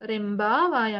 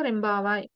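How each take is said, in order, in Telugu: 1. ఇది నెమ్మదిగా, లోపల విరామంతో అంటారు. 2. ఇది వేగంగా, ఒకే సాఫీ పదంగా అంటారు. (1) "రెంబా వాయ్ అనొచ్చు మీరు ఇట్లా అలవాటు చేసుకుంటే" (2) "ఫాస్ట్ ప్రొనౌన్సియేషన్ లో"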